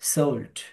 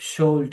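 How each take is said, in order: First: The word begins with an s sound. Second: The word begins with a sh sound. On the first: The speaker calls it right. "সোল্ড সিন দিয়ে" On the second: The speaker calls it wrong. "সোল্ড না"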